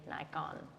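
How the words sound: It is said the American way.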